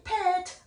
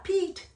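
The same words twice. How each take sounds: First: "pet" with a short E, as the wrong reading; short-vowel mispronunciation. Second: "Pete" with a long ee; high, stretched ee in "Pete". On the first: ("pet"을 짧은 에 소리로) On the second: ("Pete"를 긴 이 소리로) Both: Shown as a demonstration. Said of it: "발음이 pet 안 합니다".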